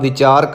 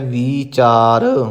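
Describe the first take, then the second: First: The first vowel is a short i. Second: The first vowel is a long ii. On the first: The speaker calls it wrong. "ਤਾਂ ਵਾਵੇ ਨੂੰ ਸਿਹਾਰੀ ਲੱਗੇਗੀ" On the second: The speaker calls it right. "ਬਿਹਾਰੀ ਲਾ ਕੇ ਉਚਾਰਨ ਕਰਨਾ ਹੈ"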